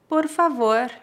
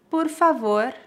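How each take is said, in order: Both takes have the same delivery.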